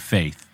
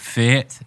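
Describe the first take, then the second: First: It is said in an ordinary American accent. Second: It is said in an Irish accent. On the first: "Do they let you say faith the way the real Irish say faith?" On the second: "the way the real Irish say faith? ... he would say"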